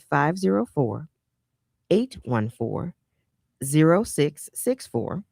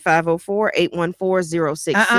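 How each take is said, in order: First: The number is said slowly. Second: The number is said fast.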